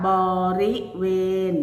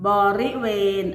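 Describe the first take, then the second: First: บริเวณ split into separate syllables with small pauses; syllable-by-syllable reading. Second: Said in the usual way. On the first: Shown as a demonstration. Teacher showing pupils how it reads, syllable by syllable. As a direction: sound out บริเวณ one syllable at a time. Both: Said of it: "อ่านว่า".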